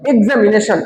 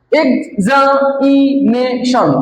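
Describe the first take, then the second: First: Said in the usual way. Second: এক্সামিনেশন slowly as EX, A, MI, NA, TION; five even beats on এক্সামিনেশন; broken into syllables. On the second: Shown as a demonstration. Teacher shows five syllables to class, এক্সামিনেশন split slowly. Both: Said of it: "পাঁচবারে".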